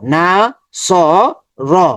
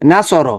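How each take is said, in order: First: Each syllable is said separately with breaks. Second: The syllables are joined into one smooth word. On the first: "প্রথমে ভেঙ্গে ভেঙ্গে পড়বো" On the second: "একসাথে মিলিয়ে ফেলবো"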